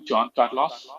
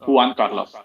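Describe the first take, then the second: First: The first name begins with a J sound. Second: The first name begins with an H sound. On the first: The speaker calls it wrong. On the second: The speaker calls it right.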